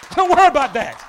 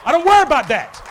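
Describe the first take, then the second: No difference in how they are said.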